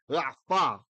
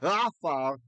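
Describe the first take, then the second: First: The first syllable is unstressed. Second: The first syllable is stressed. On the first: The speaker calls it right. "that syllable is unaccented, it's unstressed" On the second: The speaker calls it wrong. "We don't say"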